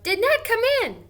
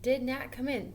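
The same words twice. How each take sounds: First: Much higher and louder, bursting with excitement; excited question. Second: Said in the usual way. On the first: Shown as a demonstration. Teacher showing the class an excited way to ask. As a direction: blurt it out excitedly. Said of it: "even when I say it excitedly". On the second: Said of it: "This is saying it like".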